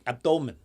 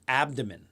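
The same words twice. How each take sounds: First: The word is said in an imitated foreign accent. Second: The word is said in the speaker's ordinary accent.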